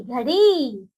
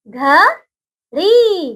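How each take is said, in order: First: Said in the usual way. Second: घ-ड़ी stretched very slowly into two separate syllables; very slow sounding out घड़ी for children. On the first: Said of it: "joined after the split". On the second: Shown as a demonstration. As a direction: draw out घ, then ड़ी, each on its own. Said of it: "syllable by syllable spelling".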